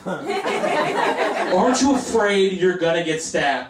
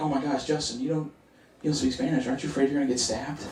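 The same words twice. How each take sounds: First: Slow, drawn-out higher-pitched question; exaggerated mock worry. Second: Soft, worried friend imitation; hushed mock concern. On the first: Comedian mimics fearful friends and family, hamming it up slowly. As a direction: stretch the worried question out mockingly. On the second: Friends worry about his Dominican neighborhood, in hushed voices.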